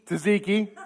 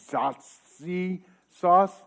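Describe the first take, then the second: First: Tzatziki said right, with a laugh; corrected with a laugh. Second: Zhatzi sauce drawn out slowly, groping for the word; fumbled tzatziki. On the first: Pastor finally gets the sauce name, laughing. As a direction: land the right word, laughing at yourself. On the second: Pastor stumbles over the sauce's name, slow and unsure. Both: Real, not acted. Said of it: "Zhatzi. Tzatziki".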